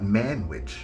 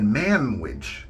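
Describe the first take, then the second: First: The middle consonant is an N sound. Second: The middle consonant is an M sound. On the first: "not Manwich" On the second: "I am saying Manwich. M A M"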